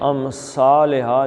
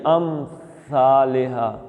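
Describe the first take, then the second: First: The consonant is a hissing s sound. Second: The consonant is a soft th sound without hissing. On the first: The speaker calls it wrong. "इसको सीन नहीं बनाना, अमसालिहा नहीं कहना" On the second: The speaker calls it right. "ऐसे सा निकलता है, ये देखें, अस अस सीटी नहीं आनी चाहिए"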